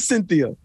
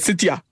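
First: The name is said with a clear 'th' sound. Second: The name is said without a clear 'th' sound. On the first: This is the standard way to say the name. The speaker calls it right. "I don't even say Cynthia" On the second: This is how the parents say the name. The speaker calls it wrong. "They be like"

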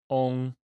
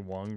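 First: The name is said with a Chinese pronunciation. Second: The name is said with an American pronunciation. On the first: "is how you say it in Chinese" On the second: "sounds very, very American"

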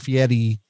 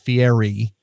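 First: The name is said with Italian pronunciation. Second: The name is said with American pronunciation. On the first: "If you say it properly in the Italian" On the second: "and not"

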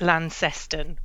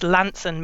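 First: It is pronounced just as the name is spelled. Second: It uses the local Cornish pronunciation of the name. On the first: This is how outsiders guess it. The speaker calls it wrong. "which is how it looks on the page" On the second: This is how locals say it. The speaker calls it right. "if you're proper Cornish, it's Launceston me anson"

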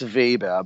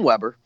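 First: The name is pronounced the German way. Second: The name is pronounced the American way. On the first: "I prefer the German pronunciation" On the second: "that's what they say in American schools"

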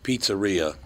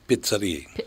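First: The first syllable sounds like 'peet'. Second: The first syllable sounds like 'pit'. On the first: "he did not pronounce it pizzeria" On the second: "He pronounced it pizzeria"

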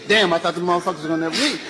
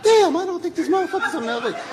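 First: It is said like a Black man would. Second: It is said in Michael's usual soft voice.

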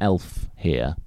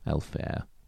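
First: The second part rhymes with here. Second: The second part rhymes with there. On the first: The speaker calls it wrong. "as I've pronounced it" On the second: The speaker calls it right. "with an E sound like where or there"

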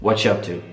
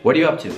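First: The word 'are' is dropped entirely. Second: The word 'are' is clearly pronounced.

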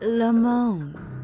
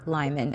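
First: The surname is pronounced like 'Limon'. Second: The surname is pronounced like 'Lyman'. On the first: The speaker calls it right. "They are actually Robert and Sabrina Limon" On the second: The speaker calls it wrong. "it's not Lyman"

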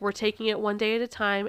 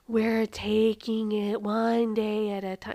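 First: It is said at a normal pace. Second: It is said slowly and deliberately.

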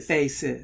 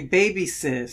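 First: The nickname has two syllables. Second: The nickname has three syllables. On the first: The speaker calls it right. "you say Bay Sis" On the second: The speaker calls it wrong. "you don't say baby sis"

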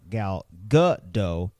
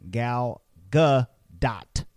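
First: The name ends without a T sound. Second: The name ends with a clear T sound. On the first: The speaker calls it wrong. "If you're not pronouncing the letter T in Gal Gadot's name, you're making a mistake" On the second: The speaker calls it right. "you should be saying Gal Gadot"

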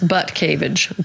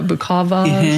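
First: The name begins with a 'butt' sound. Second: The name begins with a 'buk' sound. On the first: It is read just as it is spelled. The speaker calls it wrong. "That's not how it's pronounced, but that's how it's spelled" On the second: It is the likely real pronunciation. The speaker calls it right. "Bukavage or something"

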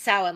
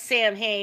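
First: The name is said with an Irish pronunciation. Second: The name is said with an anglicized pronunciation. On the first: "like the Irish pronounce it" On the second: "in one movie, it's pronounced Samhain"

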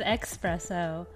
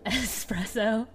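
First: The word begins with a ks sound: expresso. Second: The word begins with an s sound: espresso. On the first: The speaker calls it wrong. "you said espresso" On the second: The speaker calls it right. "It's espresso"

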